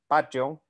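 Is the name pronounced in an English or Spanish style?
Spanish. It is said with Spanish-style pronunciation.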